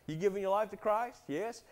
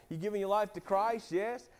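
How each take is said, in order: Both takes have the same delivery.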